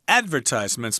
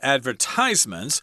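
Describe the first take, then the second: First: The stress is on the first syllable. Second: The stress falls on a later syllable. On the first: This is the speaker's own way of saying it. "I say advertisements myself with the accent on the first syllable" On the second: Some people say it this way.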